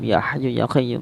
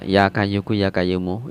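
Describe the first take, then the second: First: The throat and deep consonants are clearly articulated. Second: The throat and deep consonants become plain k sounds. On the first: The speaker calls it right. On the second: The speaker calls it wrong.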